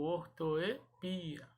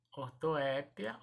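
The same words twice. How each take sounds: First: "ortoepia" said or-to-e-PI-a; drawn-out stressed PI in "ortoepia". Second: "Ortoépia" said or-to-É-pia; stress on É. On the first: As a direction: slowly model "ortoepia", stressing PI. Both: Shown as a demonstration. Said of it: "das duas maneiras".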